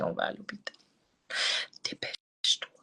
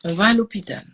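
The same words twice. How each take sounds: First: « On va à l'hôpital » chuchoté, pressant; ordre chuchoté. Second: « On va à l'hôpital » dit plus fort, ferme; ordre ferme. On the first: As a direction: souffler l'ordre à la mère, tout bas. (ordre soufflé à sa mère, pressant) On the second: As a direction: affirmer la décision avec force. Répète l'ordre avec force. (ordre ferme répété à sa mère) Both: Retold or imitated.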